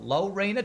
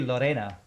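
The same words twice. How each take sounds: First: The name is said with a Texan pronunciation. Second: The name is said with a Spanish pronunciation. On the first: This is how locals in Texas say it. "but we called it Lorena" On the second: This is how the name should be said. "that would be like the Spanish pronunciation"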